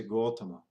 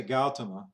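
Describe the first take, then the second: First: Gautama with a rounded "gaw" first syllable; correct pronunciation. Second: Gautama with an open "gal" first syllable; wrong pronunciation. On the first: Teacher giving the right form, Gautama with rounded first vowel. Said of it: "you say Gautama". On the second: Teacher showing what not to say, Gautama with open first vowel. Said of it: "You don't say Gautama". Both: Shown as a demonstration.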